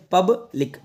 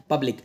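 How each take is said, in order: First: public split as "pub - lik"; broken into syllables. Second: Said in the usual way. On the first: Shown as a demonstration. Teacher showing learners how public is read, in two parts. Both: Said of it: "इसको पढ़ते हैं".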